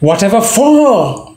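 The stress falls on 'for'. The father thought the son was ready. "Stress on for"

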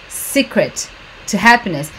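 The words are said slowly with pauses between them. "ela tá falando bem pausado aqui"

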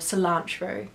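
It is said with an American pronunciation.

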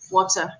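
The middle consonant is a crisp t sound. This is the British way to say it. "In British, it's water. Right, there's a t sound in it"

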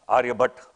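The name is pronounced as in northern India. "In northern India, Aryabhatta"

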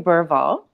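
It is said the common English way.

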